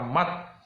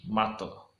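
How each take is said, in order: First: The t sound stops flat with no echo. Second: The t sound releases with a short echoing bounce. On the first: The speaker calls it wrong. "kita tidak mengatakan mat" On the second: The speaker calls it right. "tapi mato"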